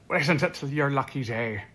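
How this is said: It is said in a put-on Irish accent.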